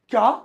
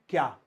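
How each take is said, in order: First: It is said with strong surprise. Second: It is said in a plain, neutral way.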